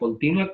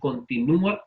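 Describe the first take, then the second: First: The u glides weakly into the final a. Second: The u is stressed as its own syllable. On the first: It is an adjective meaning ongoing. "hay diptongo" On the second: It is a verb meaning keeps on. "la letra que estamos pronunciando con mayor intensidad, que es una vocal débil, es la U"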